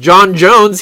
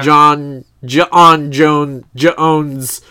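First: Each name part is said smoothly without a break. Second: Each name part has a catch or break inside. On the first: The speaker calls it wrong. "He's not John Jones" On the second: The speaker calls it right. "You're pronouncing the apostrophe?"

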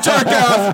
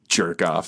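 First: It is said loudly. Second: It is said quietly, under the breath.

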